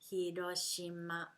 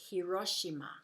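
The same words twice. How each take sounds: First: All syllables are given equal weight. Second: One syllable is stressed more than others. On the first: The speaker calls it right. "You use all the syllables quite the same way" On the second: The speaker calls it wrong. "they're thinking like English needs a stress in the word"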